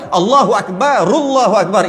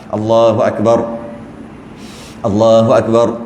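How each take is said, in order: First: The final r links into the next word. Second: A long breath pause separates the phrases. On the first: It follows the recitation rule for joining words. "itu tajwidnya. Sebab kita nak sambung, maka ra tu baris depan, maka ru, rullah" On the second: It makes the takbir drag on too long. "Sebab kalau tarik nafas, dia panjang pula"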